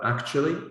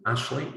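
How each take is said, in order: First: Every syllable is said fully and carefully. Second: It is said quickly with syllables squeezed together.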